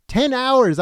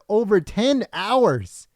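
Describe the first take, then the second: First: "Ten hours" repeated much higher, stressing "Ten"; emphatic repeat. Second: Said in the usual way. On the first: Real, not acted. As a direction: hammer home "Ten hours" in disbelief.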